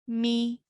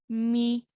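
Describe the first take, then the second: First: The vowel is short, held for one beat. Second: The same.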